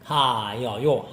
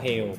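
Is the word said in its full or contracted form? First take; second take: full; contracted. First: It is said in full, with three syllables. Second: It is contracted, with two syllables. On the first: Older speakers used this form. "Orang dulu orang-orang Korea dulu masih menggunakan ini" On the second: Modern speakers use this form. "Diperpendek lebih bagus"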